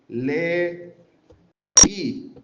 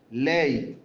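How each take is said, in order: First: LE, I split in two, pause before the i; accented final i. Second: LEY as one syllable, gliding into the final y. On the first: Teacher showing a word with tilde, LE, I in two beats. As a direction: break LE, I apart, lifting the stressed i. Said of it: "tiene la tilde". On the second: Teacher showing a word without tilde, LEY in one syllable. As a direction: say LEY as a single unbroken syllable. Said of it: "No tengan la tilde". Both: Shown as a demonstration.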